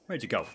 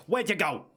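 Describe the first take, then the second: First: Hushed unvoiced whisper. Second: Raised voice, higher pitch. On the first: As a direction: whisper it to yourself. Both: Real, not acted. Lost the target.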